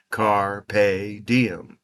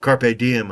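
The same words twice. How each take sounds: First: Said in the usual way. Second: Carpe diem with the stress pushed onto the wrong syllable; wrong stress, muttered. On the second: Shown as a demonstration. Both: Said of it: "putting the emphasis on the wrong syllable".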